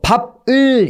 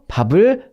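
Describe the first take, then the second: First: The final consonant is cut off from the vowel. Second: The final consonant flows into the next vowel. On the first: The speaker calls it wrong. "끊어 읽지 않으실 거예요" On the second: The speaker calls it right. "제 발음 자연스럽잖아요"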